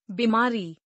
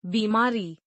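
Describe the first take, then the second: First: बीमारी with short first i, "bimaari"; mispronounced. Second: Said in the usual way. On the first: Shown as a demonstration. Teacher showing an i error, mispronounced with short first i. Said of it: "अशुद्ध". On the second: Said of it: "शुद्ध".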